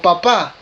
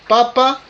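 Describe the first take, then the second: First: The stress is on the second syllable. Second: The stress is on the first syllable. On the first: It names a father. "el otro es el, el, el papá, el progenitor de un hijo" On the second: It names a vegetable, the potato. "uno es un vegetal"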